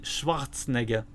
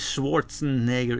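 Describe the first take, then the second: First: The name is said with a German pronunciation. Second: The name is said with an English pronunciation. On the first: The speaker calls it right. "it should be Schwarzenegger" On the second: The speaker calls it wrong. "his name should not be Schwarzenegger"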